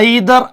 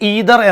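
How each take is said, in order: First: The first vowel sounds like 'eye'. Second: The first vowel sounds like 'ee'. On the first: "രണ്ട് ഉച്ചാരണം നമുക്ക് വരാം" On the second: "രണ്ട് ഉച്ചാരണം നമുക്ക് വരാം"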